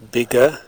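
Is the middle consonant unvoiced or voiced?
voiced. The middle consonant is short and voiced. "Medial lean explosives are usually fully voiced in RP English"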